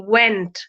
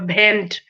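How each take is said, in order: First: The word begins with a w sound. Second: The word begins with a b sound. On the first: The speaker calls it right. "W E N T, went" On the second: The speaker calls it wrong. "those who pronounce W as b, they call went as bent"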